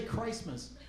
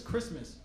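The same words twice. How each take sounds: First: "Christmas" with a long eye vowel, "CRICE-mas"; "Christmas" with its first vowel as in "price"; drunken mispronunciation. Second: Said in the usual way. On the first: Shown as a demonstration. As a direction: say "Christmas" as "CRYCE-muss". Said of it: "She'll say Christmas". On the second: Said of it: "she never says Christmas".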